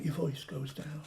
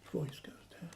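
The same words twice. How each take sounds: First: Softer, dropping off; voice going down. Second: Hushed near-whisper; voice going down. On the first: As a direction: let the voice sink as if absorbed in a task. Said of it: "Have you noticed when you're actually doing something". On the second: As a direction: drop right away to a whisper, as if absorbed. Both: Shown as a demonstration.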